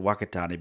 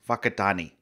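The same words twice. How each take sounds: First: The name begins with a W sound. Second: The name begins with an F sound. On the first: "we all pronounce it Wakatani because that's what it looks like" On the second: "it's pronounced like an F, the W H"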